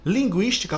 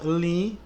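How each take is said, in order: First: Said in the usual way. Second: Separated into syllables. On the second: Shown as a demonstration. ("Linguística" separando devagar cada sílaba) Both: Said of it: "como é que se separa?".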